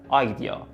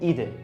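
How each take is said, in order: First: It is said as three syllables, eye-dee-ah. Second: It is said as two syllables, ee-deh. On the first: The speaker calls it right. "ولی تلفظش هست آیدیا" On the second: The speaker calls it wrong. "آره میخونید ایده"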